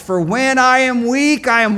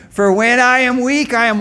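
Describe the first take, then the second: First: Raised, higher call for a response; call to congregation. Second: Louder, higher call for the response; call again, bigger. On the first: Preacher calling the line to his congregation, loud. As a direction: lead the crowd in the line, calling out. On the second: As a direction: push the crowd harder this time. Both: Shown as a demonstration. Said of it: "Let's try that again".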